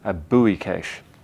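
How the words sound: It is said in an American accent.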